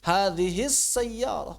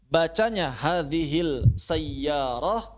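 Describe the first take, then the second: First: Slow hadhis sayyarah, lam merged into s; correct idgham. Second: Slow, clear lam in hadhil sayyarah; the teacher offers hadhil sayyarah as the wrong option, sounding the l; wrong reading hadhil. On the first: Teacher giving the right answer, slow merged lam. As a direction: assimilate the l: hadhis sayyarah, unhurried. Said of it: "Kenapa hadhis sayyarah? Karena idgham". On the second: Teacher quizzing the class on lam syamsiyah, slow clear l. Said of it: "bacanya hadhil sayyarah atau hadhis sayyarah?". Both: Shown as a demonstration.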